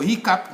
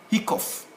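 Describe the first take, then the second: First: HICCUP ending in a cup sound; correct pronunciation. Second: HICCOUGH ending like the word cough, with an F; spelling pronunciation. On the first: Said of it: "phonetics which will tell us pronounce". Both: Shown as a demonstration.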